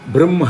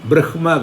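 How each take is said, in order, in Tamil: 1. நடுவில் இரட்டை m, h இல்லை. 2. நடுவில் h, அதன் பின் m. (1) "பிரம்ம தான் சொல்லணும்" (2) "பிரஹ்மா கிடையாது"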